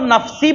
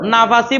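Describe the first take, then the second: First: No vowel is heard between f and s. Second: A vowel is heard between f and s. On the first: "নাফসি পড়তে পারেন" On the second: "নাফাসি পড়তে পারেন"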